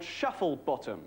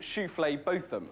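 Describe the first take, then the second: First: It begins with a plain 'shuffle' sound. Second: It begins with a 'shoo-flay' sound. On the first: This is how the name is spelt. "there are people in the phone directory called Shufflebottom" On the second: The owners want to avoid mockery of the name. "they will always insist on their name actually being Shooflay Botham"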